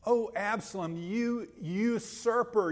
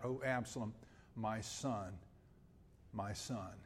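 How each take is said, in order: First: Higher and louder, slow accusing call; accusing cry. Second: Softer and lower, fading lament; a father mourning his son; grieving cry. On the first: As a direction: denounce the traitor son. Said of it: "He could have said". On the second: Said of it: "And he cries out". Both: Retold or imitated.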